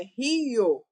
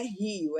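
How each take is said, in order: First: "rio" in two syllables, ri-o, with a long loud i; hiatus. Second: Said in the usual way. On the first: Shown as a demonstration. Teacher corrects the usual saying, "rio" stretched into two syllables ri-o. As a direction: pull "rio" apart into RII-o, louder. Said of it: "nós temos um hiato". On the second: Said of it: "Não é rio, é rio".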